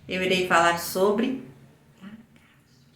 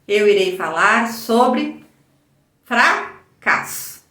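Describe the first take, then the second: First: It is said very softly. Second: It is said at normal volume.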